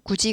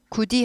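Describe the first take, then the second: First: The second syllable is said with a soft j. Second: The second syllable is said with a hard d. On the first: The speaker calls it right. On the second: The speaker calls it wrong.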